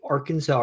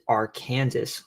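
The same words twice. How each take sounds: First: The final S is silent, ending in saw. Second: The final S is pronounced, like Kansas. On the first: "it's pronounced the Arkansas River in every state it flows through except Kansas" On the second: "where they pronounce it Arkansas, like the name of their own state"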